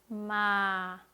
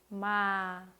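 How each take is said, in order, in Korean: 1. 음이 가볍게 천천히 끝까지 내려갑니다. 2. 음이 가볍게 천천히 끝까지 내려갑니다.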